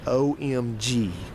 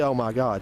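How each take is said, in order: First: It is spelled out as three letters. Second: It is said as three full words. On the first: "She said that like the letters" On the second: "She didn't say"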